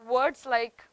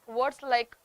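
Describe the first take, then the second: Both takes have the same delivery.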